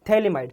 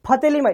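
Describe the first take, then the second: First: The word begins with a t sound. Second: The word begins with an f sound. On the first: The speaker calls it right. "पी एच silent है। इसको हम थेलीमाइट बोलते हैं" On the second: The speaker calls it wrong. "इसको फतेलीमाइट नहीं बोलते"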